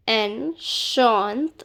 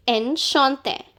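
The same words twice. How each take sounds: First: Enchanté drawn out, ending on a rising té; slow careful demo. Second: Said in the usual way. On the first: Shown as a demonstration. Teacher slows Enchanté so students hear each sound. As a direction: stretch Enchanté slowly for learners. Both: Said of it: "This E is not pronounced".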